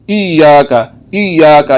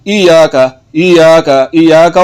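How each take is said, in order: First: इय्याका with the ya doubled; इय्याका, double the ya sound; correct pronunciation. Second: इय्याका with a single ya, not doubled; इय्याका said wrongly with one short ya; wrong pronunciation. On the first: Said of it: "कैसे पढ़ना है?". (सही उच्चारण, या दो बार) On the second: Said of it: "या एक मरतबा पढ़ा जा रहा है". (गलत उच्चारण, या एक बार) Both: Shown as a demonstration.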